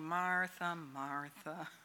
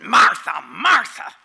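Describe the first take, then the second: First: It is said in a soft, gentle tone. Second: It is said in a harsh, scolding tone.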